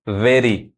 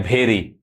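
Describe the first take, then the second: First: वेरी with an unaspirated v; taught 'v' sound. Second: भेरी with an aspirated 'bh'; common mispronunciation. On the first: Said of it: "उसको व पढ़ना है". (वेरी को 'व' से शुरू करें) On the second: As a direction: say भेरी as 'BHE-ree'. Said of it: "भ नहीं पढ़ाता है". (भेरी को 'भ' से शुरू करें) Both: Shown as a demonstration.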